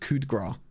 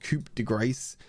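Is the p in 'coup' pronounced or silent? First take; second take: silent; pronounced. First: The p in the first word is silent. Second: The p in the first word is pronounced. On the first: The speaker calls it right. "you ignore the P and you ignore the grace at the end" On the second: The speaker calls it wrong. "It's not coup de grace"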